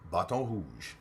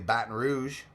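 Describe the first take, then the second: First: The name is said with a French accent. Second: The name is said with an English accent.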